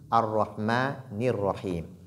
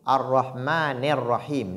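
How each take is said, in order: First: The vowel after the n sounds like 'ni'. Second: The vowel after the n sounds like 'ne'. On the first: The speaker calls it right. "mais plutôt ni" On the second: The speaker calls it wrong. "On ne doit pas dire Ar-Rahmanir-Rahim, ne"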